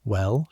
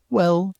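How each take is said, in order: First: Said in the usual way. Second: "Well?" much higher and louder; eager echo. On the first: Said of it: "she says". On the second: A narrator's reading. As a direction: fire "Well?" back, high and keen. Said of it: "you say".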